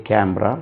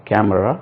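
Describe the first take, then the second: The two takes are said the same way.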